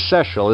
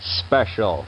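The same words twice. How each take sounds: First: The word is said without a p sound. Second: The word is said with a p sound. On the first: The speaker calls it wrong. "special isn't even a word" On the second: The speaker calls it right. "Insert that little P in there and make it a correct word"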